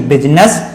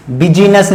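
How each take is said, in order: First: बिजनेस as quick BIZ-nas, rising end; two syllables only in बिजनेस, no middle ee; correct pronunciation. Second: बिजनेस misread bi-JEE-nas, three syllables; wrong pronunciation. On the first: Teacher corrects the misreading for students, correct pronunciation. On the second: Teacher shows the reading to avoid, wrong pronunciation. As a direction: stretch an extra ee into बिजनेस. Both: Shown as a demonstration. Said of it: "बिजनेस नहीं".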